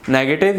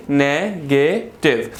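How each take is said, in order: First: Said in the usual way. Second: नेगेटिव broken into ne, ge, tiv; three syllables. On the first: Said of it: "यानी". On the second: Shown as a demonstration. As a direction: slowly sound out नेगेटिव with gaps between syllables. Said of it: "three syllables हैं".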